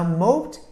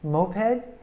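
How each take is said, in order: First: The word is said as one syllable. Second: The word is said as two syllables. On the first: "moped is a one-syllable word" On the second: "moped is two syllables, and you emphasize the first syllable"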